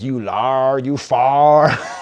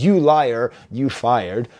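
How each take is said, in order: First: The vowels are flattened into a single sound. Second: The vowels glide fully, as in standard speech. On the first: "but he says" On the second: "So he says"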